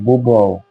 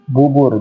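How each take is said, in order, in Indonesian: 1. Kata ini berakhir dengan bunyi -au. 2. Kata ini berakhir dengan bunyi -ur biasa.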